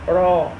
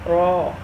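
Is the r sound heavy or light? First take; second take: heavy; heavy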